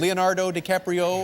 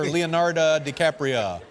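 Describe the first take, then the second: First: The vowels in the name sound like O. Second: The vowels in the name sound like A. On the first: "Is it O's and O's" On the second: "or A's and A's?"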